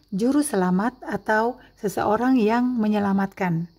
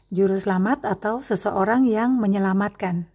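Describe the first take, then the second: The two takes are said the same way.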